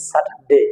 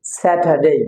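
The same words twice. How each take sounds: First: Everyday local "sa-tar-de"; common Bangla pronunciation. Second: স্যাটারডে as "sa-tha-dey", aspirated t, silent r; correct pronunciation. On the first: English teacher showing how we usually say it, common pronunciation. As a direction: say স্যাটারডে with unaspirated t and short final "de". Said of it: "আমরা সাধারণত এভাবেই বলে থাকি". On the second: Teacher answering what the right way is, correct pronunciation. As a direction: say স্যাটারডে with breathy "th" t and long "dey". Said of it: "সঠিক উচ্চারণটা কি হবে". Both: Shown as a demonstration.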